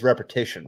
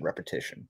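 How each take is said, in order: First: Said in the usual way. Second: Soft whispered echo of the word; whispered repetition. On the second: Shown as a demonstration. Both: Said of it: "the key is repetition".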